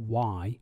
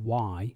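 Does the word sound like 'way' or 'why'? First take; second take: why; why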